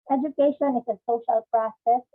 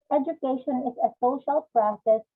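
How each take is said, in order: Both takes have the same delivery.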